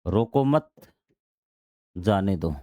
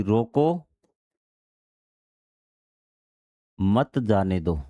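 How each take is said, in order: First: रोको मत joined and rising, pause, then lower जाने दो; pause after मत. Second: रोको rising, long pause, then lower, falling मत जाने दो; pause after रोको. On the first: Teacher moving the comma to let him go, pause after मत. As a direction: join मत to रोको, break before जाने दो. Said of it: "जो कॉमा था आपका, वो मैंने यहाँ लगा दिया". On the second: Teacher showing he must be stopped, long pause after रोको. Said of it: "आपका विराम चिन्ह यहाँ आया है". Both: Shown as a demonstration.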